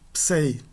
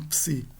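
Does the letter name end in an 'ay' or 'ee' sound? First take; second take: ay; ee. First: The vowel is a diphthong like 'ay'. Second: The vowel is a plain 'ee' sound. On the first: This is the classical-era pronunciation. "A pronúncia da época clássica seria em ei" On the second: This is the later pronunciation. "uma pronúncia tardia"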